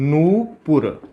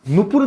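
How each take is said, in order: First: The first vowel is long and drawn out. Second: The first vowel is short and clipped. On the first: The speaker calls it right. "बड़े ऊ की मात्रा आ जाएगी, थोड़ा volume अपने खींचने" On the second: The speaker calls it wrong. "तो नुपुर नहीं होता"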